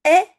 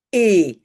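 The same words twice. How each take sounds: First: Short open eh on "est"; "est" with the vowel of French "jet". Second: Long closed é on "et"; "et" with the vowel of French "sérum". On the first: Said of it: "Est est court". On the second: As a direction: say "et" as a held, pure é. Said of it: "et est long". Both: Shown as a demonstration.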